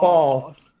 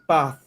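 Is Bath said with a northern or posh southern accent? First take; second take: posh southern; northern. First: It is said in a posh southern accent. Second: It is said in a common northern accent.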